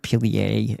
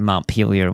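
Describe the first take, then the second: First: The name has a French pronunciation. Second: The name has an American English pronunciation. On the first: This is the name of the French city. "if you say it their way" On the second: This is the name of the town in Vermont. "they say Montpelier when it comes to Vermont"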